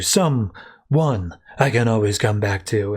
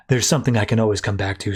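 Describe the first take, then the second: First: "Someone" split into two slow, separated beats; slow down and pause inside "Someone"; stress on Someone. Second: Said in the usual way. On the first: Retold or imitated. Grayson corrects himself to Babs, meaningful stress on "Someone".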